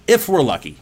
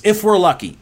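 First: Said in the usual way. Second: "if we're lucky" much higher and louder, punched; emphatic. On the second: Real, not acted. Speaker pressing home how short life is, emphatic. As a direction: hit "if we're lucky" hard and high.

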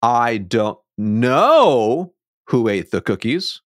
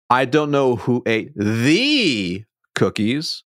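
First: "know" stretched and lifted, slow; stress on KNOW. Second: "the" lifted and stretched, slow; stress on THE. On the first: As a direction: lean on know as if puzzled. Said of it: "shifting the tone to different". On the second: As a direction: point at which cookies with "the". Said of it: "the inflection to a different word". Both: Shown as a demonstration.

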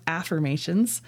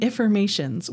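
First: Said in the usual way. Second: "affirmations" begun with a short "if" sound; altered first vowel. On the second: Real, not acted. Coach naming her stronger kind of affirmation, altered first vowel in "affirmations". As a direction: say "affirmations" as if it began with "if". Coined term contrasted with affirmations.

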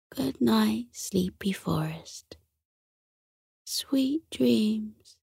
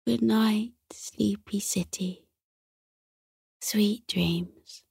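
First: Drowsy, breathy goodnight; fading sleepy whisper. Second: Yawning goodnight, trailing off softly; drowsy fading goodnight; sleepy whisper. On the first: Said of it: "said sleepily". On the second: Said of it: "he yawned again". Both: A narrator's reading.

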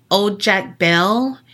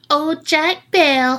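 First: Said in the usual way. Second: High, slow witchy taunt; old witch voice. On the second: Retold or imitated. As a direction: sneer it like a cackling witch. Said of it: "like the old witch she is".

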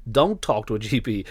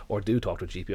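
First: "don't" hit firm and louder, falling; stress on don't. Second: Back-pedal by landing on "do"; stress on do. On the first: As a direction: lean hard on "don't". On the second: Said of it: "I shouldn't tell people not to talk to their G P". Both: Real, not acted.

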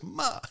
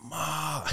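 First: "ma" short, from high, falling; mock-angry "ma", cut short from a high pitch; angry fourth tone. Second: "Ma" high and drawn out, not dropping; mock-angry attempt at "Ma" that stays up too long; failed fourth tone. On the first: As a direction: imitate a teacher correcting with a curt falling "ma". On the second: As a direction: imitate a student's overlong, high "Ma". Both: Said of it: "It's like you're angry".

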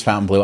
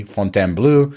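First: "Fountain Blue" the American way, like the colour blue; English Fountain Blue. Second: "Fontainebleau" with a French nasal o and a closing -bleau; French pronunciation. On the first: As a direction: say "Fountain Blue" as two plain English words, foun-tin bloo. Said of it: "it is Fountain Blue". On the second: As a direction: say "Fontainebleau" the French way, fon-ten-BLOH. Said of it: "I did my best French there". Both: Shown as a demonstration.

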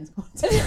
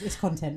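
First: "it's content" repeated higher and louder with a rise; emphatic repeat. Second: Said in the usual way. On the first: Shown as a demonstration. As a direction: push "content" up high and loud on the repeat. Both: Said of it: "repeats the phrase louder".

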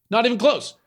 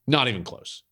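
First: "close" pitched much higher and falling; "Not even close" restated high with a falling "close"; emphatic repeat. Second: Said in the usual way. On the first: Shown as a demonstration. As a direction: hit it again much higher, punching "close".

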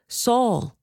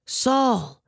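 First: High, distant call of the name; a faraway heavenly voice calling. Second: Higher, nearer second call of the name; a heavenly voice calling once more. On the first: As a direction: call down from heaven, far away. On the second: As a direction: call again, closer and more urgent. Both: A narrator's reading. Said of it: "heard a voice saying to me".

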